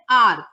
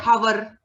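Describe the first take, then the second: First: HOUR opened on the vowel, no H; silent H in HOUR. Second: HOUR wrongly said with an audible H at the front; H sounded in HOUR. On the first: Teacher correcting to what we say, HOUR with silent H. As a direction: drop the H of HOUR so it sounds like "our". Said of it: "No, we say hour". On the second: Teacher showing what we never say, HOUR with H sounded. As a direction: voice the H of HOUR, like "how-er". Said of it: "we will never say hour". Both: Shown as a demonstration.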